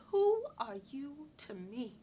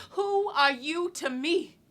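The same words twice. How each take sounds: First: Slow, measured challenge with a long WHO; restrained challenge. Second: Higher, louder, drawn-out challenge. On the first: Woman thinking back at a controlling man, restrained challenge. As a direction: question him slowly, at a contained volume. Acted retort, first time. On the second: Woman challenging the man she robs, loud and defiant. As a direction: throw the slow question at him at full voice. Acted retort, repeated louder. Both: Acted.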